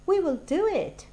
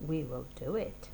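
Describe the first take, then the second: First: Higher, louder triumphant cry; excited. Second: Said in the usual way. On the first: Acted. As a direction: burst out with the decision. Scheme decided with excitement.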